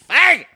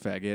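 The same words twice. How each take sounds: First: The word is yelled loudly. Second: The word is said calmly at normal volume. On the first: The word is isolated to provoke attention. "He fucking, like, yells it" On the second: The word is mentioned matter-of-factly. "he could have just said, like, look"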